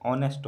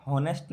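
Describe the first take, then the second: First: "ऑनेस्ट" starting straight on the O; "ऑनेस्ट", no H sound at the front; correct pronunciation. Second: "हॉनेस्ट" with the H wrongly sounded; "हॉनेस्ट", audible H before the O; wrong pronunciation. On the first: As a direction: say honest as "ऑनेस्ट", with the H silent. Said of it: "ऑनेस्ट होता है". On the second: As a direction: say honest wrongly as "हॉनेस्ट", starting with H. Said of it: "हॉनेस्ट नहीं होता है". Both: Shown as a demonstration.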